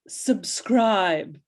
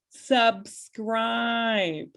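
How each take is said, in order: First: It is said in a haughty British accent. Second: It is said in her plain accent.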